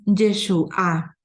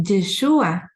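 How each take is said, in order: First: Yeshua said slowly, stress on the final A: yeshuÁ. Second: Yeshua with the stress on the U: yeshÚa. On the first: Explaining the Hebrew word for salvation, stress on the A. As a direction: lean on the last syllable of Yeshua. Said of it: "con el acento en la A". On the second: Naming the Messiah, Yeshua stressed on the U. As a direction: put the weight on the U of Yeshua. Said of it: "con acento en la U". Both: Shown as a demonstration.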